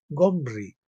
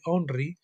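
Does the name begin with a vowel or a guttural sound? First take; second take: guttural; vowel. First: The name begins with a guttural throat sound. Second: The name begins directly with a vowel. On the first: This is the original Hebrew form. "pronunciado Gomri con G H" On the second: This is the modern Spanish form. "como escribimos y pronunciamos en castellano"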